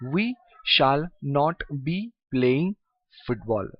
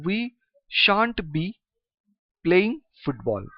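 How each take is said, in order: First: Shall not is said as two full words. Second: Shall not is contracted into one syllable.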